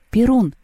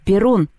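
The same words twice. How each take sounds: First: Name called in a high, rounded arc; calling out. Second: Short bark of the name, pitched up. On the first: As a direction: call his name without barking it. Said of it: "позвала Лёля". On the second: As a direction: bark the name, without a full shout. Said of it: "рявкнул Мишка". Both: A narrator's reading.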